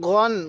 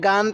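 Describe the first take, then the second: First: The vowel is dark and rounded, like 'o'. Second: The vowel is open and light, like 'a'. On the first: The speaker calls it right. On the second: The speaker calls it wrong.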